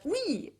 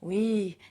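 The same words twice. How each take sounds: First: It sounds cheerful and willing. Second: It sounds weary and discouraged.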